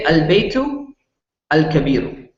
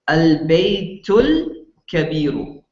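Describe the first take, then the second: First: The second article starts fresh as a separate word. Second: The second article is run into the word before. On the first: The words are read as two separate units. "when you're pronouncing these as two separate words" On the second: The words are read together as one sentence. "together in one sentence without stopping your breath"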